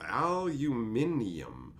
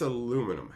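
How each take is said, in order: First: It is said the British way, five syllables. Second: It is said the American way, four syllables.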